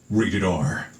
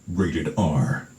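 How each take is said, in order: No difference in how they are said.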